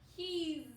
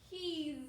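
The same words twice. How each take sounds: No difference in how they are said.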